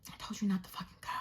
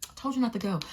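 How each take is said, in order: First: Fast, very soft hissed reproach; exasperated whisper. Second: Said in the usual way. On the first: Retold or imitated. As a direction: whisper it fast under your breath, fed up. Exasperated muttering about other driver.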